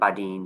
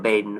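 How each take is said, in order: First: The name is pronounced the French way. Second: The name is pronounced the English way.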